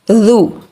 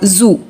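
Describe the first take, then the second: First: The consonant is a soft d sound. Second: The consonant is a buzzing z sound. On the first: The speaker calls it right. "the letter dal is soft, not hard" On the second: The speaker calls it wrong. "We will not pronounce it as za or zu"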